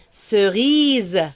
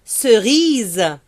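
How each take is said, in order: Both takes have the same delivery.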